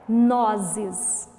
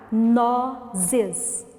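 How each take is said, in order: First: Said in the usual way. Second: NOZES split as "no... zes", drawn out; syllable by syllable. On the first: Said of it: "a nossa última palavra". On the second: Shown as a demonstration. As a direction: pause between the two syllables of Nozes. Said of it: "vamos separar as sílabas". (Nozes separado em sílabas, devagar)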